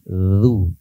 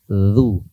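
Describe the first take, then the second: No difference in how they are said.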